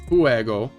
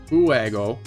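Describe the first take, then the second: The two takes are said the same way.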